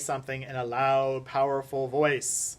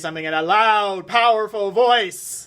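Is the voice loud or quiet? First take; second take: quiet; loud. First: It is said at a normal, quiet volume. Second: It is said in a loud, powerful voice. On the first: "that didn't sound like I was bellowing there" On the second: "That would be more bellowing"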